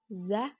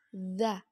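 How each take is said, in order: First: "za" dengan udara ikut mengalir; contoh salah. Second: "za" mengalir lembut tanpa hembusan udara; udara ditahan. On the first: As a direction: hembuskan udara saat melafalkan "za". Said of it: "Tidak boleh za dengan mengalir udara". (udara bocor pada "za") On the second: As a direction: tahan udara saat melafalkan "za". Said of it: "Suara mengalir dengan lembut tanpa diiringi". (ujung lidah di gigi atas pada "za") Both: Shown as a demonstration.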